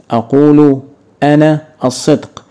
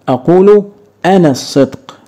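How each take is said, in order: First: Said in the usual way. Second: أقول raised high and leaned on, then أنا الصدق; teacher punches أقول to show the hidden أنا; stressed teaching take. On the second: Shown as a demonstration. Teacher showing students the hidden subject, أقول stressed high. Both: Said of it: "ينفع أقول".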